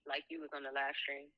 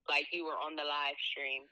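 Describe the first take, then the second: First: It is said at a quieter volume. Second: It is said at a louder volume.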